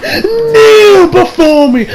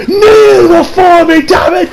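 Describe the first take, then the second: First: Shrieking, slow, drawn-out scream; Zod. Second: Very high, slow commanding shout; Zod. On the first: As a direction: scream the command at its peak, stretched long. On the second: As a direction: roar the order down at him. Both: Retold or imitated. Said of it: "Like she's fucking Zod out here".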